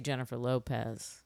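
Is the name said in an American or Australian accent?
American. The name is said in an American accent. "You say Jennifer Lopez"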